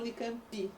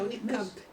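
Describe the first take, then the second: First: An extra 'ee' vowel follows the final consonant. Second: The word ends on the bare final consonant. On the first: The speaker calls it wrong. "a gente põe um i que não tem" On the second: The speaker calls it right. "é Unicamp"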